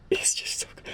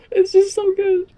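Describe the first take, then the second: First: Soft unvoiced whisper of awe; breathless whisper. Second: High, gushing squeal of delight. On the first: Fan whispering to viewers, overwhelmed by the episode. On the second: Fan squealing to viewers about the episode. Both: Real, not acted.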